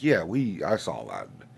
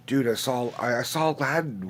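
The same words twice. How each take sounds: First: Acted unimpressed uncle, sinking in pitch; underwhelmed reply. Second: Higher-pitched imitation of an eager nephew. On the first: His own reply to the nephews. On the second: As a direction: play a kid sharing big news. Imagines nephews telling him about Aladdin.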